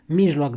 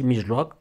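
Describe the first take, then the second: First: Mijloc stressed on i, loud and falling; first stress on Mijloc. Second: Mijloc stressed on o, rising; final stress on mijloc. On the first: Teacher contrasts two different words, Mijloc stressed first. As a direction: say 'MIJ-loc' for Mijloc. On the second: Teacher gives the other word, mijloc stressed at the end. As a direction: say 'mij-LOC' for mijloc. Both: Shown as a demonstration. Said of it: "cuvinte diferite".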